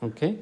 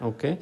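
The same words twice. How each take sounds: No difference in how they are said.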